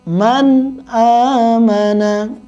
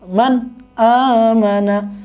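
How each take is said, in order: First: The words run on without a break. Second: A short break comes after the n sound. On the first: The speaker calls it right. "dibaca jelas" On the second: The speaker calls it wrong. "ada jedah antara nun sukun dan tanwin, dan itu tidak boleh ya"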